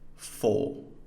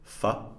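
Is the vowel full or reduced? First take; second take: full; reduced. First: The vowel is said fully and clearly. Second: The vowel is reduced to a weak schwa. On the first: The speaker calls it wrong. "the full unreduced forms" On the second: The speaker calls it right. "these schwas"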